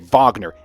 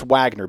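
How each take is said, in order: First: The name is pronounced in a German-style way. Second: The name is pronounced in an English-style way. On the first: The speaker calls it wrong. "Our forefathers didn't die in the muck for us to say Wagner" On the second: The speaker calls it right. "It's Wagner, baby"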